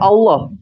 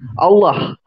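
First: The vowel is a flat, plain o. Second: The vowel glides from o toward ah. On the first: This is how Indonesians say it. "bukan Allah" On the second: This is how Arabic-speaking countries say it. "o-nya itu bukan o datar tapi o-ah"

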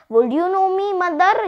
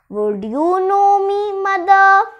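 First: It runs on with no pause before 'mother'. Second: It has a clear pause before 'mother'. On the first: The speaker calls it wrong. "I did not follow punctuations" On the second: The speaker calls it right. "You should follow punctuations"

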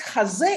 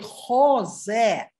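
First: The first vowel is an a sound. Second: The first vowel is an o sound. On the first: It means on the chest. The speaker calls it wrong. "подписать хазе – это подписать на груди" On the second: It means a contract. The speaker calls it right. "О в А не превращается"

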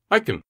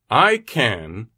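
First: The word can is said with a weak vowel. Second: The word can is said with a full vowel.

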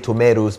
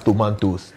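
First: It is said in a Western-sounding English accent. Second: It is said in an African English accent. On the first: The speaker imitates someone else to fit in. The speaker calls it wrong. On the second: The speaker embraces their own identity. The speaker calls it right. "if you can pronounce the word as tomatoes, say it as tomatoes"

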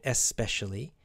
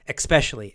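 First: It begins with a plain 'es' sound. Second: It begins with an 'eks' sound. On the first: This is the dictionary form. "It is the dictionary pronunciation" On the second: This is the common everyday form. "Americans almost always will add that K or K sound, ek, X"

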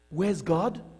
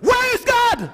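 First: It is asked in a calm, plain tone. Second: It is asked in a very stern voice.

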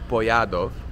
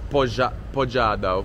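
First: The J is sounded like a Y. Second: The J is sounded like an English J. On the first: The speaker calls it right. "the J is like a Y" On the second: The speaker calls it wrong. "so it's not pojadov"

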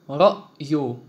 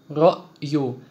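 The two takes are said the same way.

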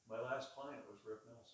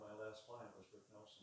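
First: It is said at a medium volume. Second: It is said at a soft volume.

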